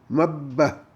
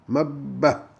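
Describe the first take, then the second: Both takes have the same delivery.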